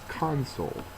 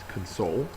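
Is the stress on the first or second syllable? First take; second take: first; second. First: The stress is on the first syllable. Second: The stress is on the second syllable. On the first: It is the noun meaning a control panel. "you put in the accent mark on the first syllable instead of the second" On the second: It is the verb meaning to comfort someone. "The verb pronunciation is console"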